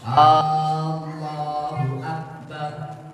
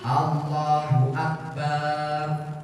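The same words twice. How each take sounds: First: The opening vowel of the phrase is drawn out. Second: The final syllable of the phrase is drawn out. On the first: "memanjangkan tadi hamzah" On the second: "memanjangkan baknya"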